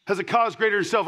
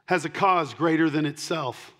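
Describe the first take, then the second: First: Quick, higher repeat of the point; fast emphatic repeat. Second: Said in the usual way. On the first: Real, not acted. Pastor pressing the point on the church, fast emphatic repeat. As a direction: rattle it off again to drive it home.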